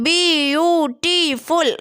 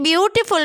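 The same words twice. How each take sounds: First: "बी यू टी फुल" split into separate slow syllables; syllables spelled out. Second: Said in the usual way. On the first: Shown as a demonstration. Teacher to students counting vowel sounds, syllable by syllable. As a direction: break "बी यू टी फुल" apart, one syllable at a time. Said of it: "इसमें कितने ज़्यादा vowel sound".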